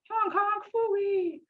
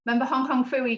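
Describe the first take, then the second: First: High, slow "Hong Kong Phooey!"; cartoon title call. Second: Said in the usual way. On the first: Teacher sings out "Hong Kong Phooey!" to the class.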